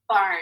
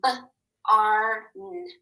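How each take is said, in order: First: Said in the usual way. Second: "barn" split into separate sounds, b, ar, n; segmented phonics demo, "ar" held long; sounded out. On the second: Shown as a demonstration. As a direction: tap out each sound of "barn" with gaps. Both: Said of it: "Let's tap and read".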